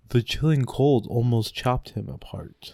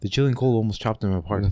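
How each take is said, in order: First: It is said at a slow pace. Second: It is said at a faster pace.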